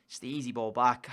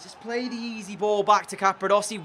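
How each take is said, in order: First: Quietly resigned, replaying the error; resigned mutter. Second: Higher, pleading with the player; "back" stressed in frustration; exasperated, telling him what he should have done; exasperated plea. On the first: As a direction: lower and softer, deflated. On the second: Exasperated at teammate's mistake. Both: Real, not acted.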